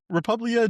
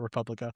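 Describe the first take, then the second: First: It is said without a k sound. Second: It is said with a k sound. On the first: The speaker calls it right. "it's so weird to say that" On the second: The speaker calls it wrong. "not Republica"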